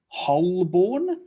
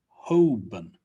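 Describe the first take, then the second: First: The L sound is pronounced in the name. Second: The L sound is left out of the name. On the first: The speaker calls it wrong. "Not quite" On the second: The speaker calls it right. "The L is usually not pronounced"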